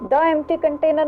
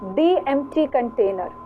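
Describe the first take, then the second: First: The article is said with a short "thuh" vowel. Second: The article is said with a long "thee" vowel. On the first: The speaker calls it wrong. "नहीं है" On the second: The speaker calls it right.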